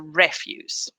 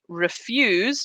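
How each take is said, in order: First: The stress is on the first syllable. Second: The stress is on the second syllable. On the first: It is used as a noun. "if it's a noun, the stress is on the first syllable" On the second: It is used as a verb. "if it's the verb, the stress is on the second syllable"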